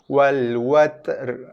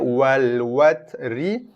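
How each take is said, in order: First: The word ends with an 'r' cut off halfway. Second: The word ends with a full 'ri' syllable. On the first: This is the form when stopping at the end of the verse. "macam kita nak sebut ri, tapi bunyinya terputus" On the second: This is the form when reading on without stopping.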